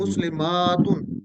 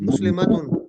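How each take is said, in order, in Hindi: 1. m के बाद वाला स्वर लंबा है। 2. m के बाद वाला स्वर छोटा है। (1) "अगर मीम के आगे अलिफ होता ना, फिर पढ़ते" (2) "तो जबर को छोटा करके पढ़ते हैं"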